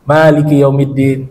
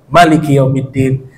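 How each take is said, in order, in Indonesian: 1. Vokal pertama dalam maliki dibaca panjang. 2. Vokal pertama dalam maliki dibaca pendek. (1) "kata Maliknya dipanjangkan" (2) "Di rakaat kedua dikosor"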